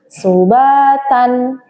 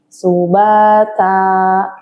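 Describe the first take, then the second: First: The word ends with a short vowel and n. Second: The word ends with a long vowel, no n.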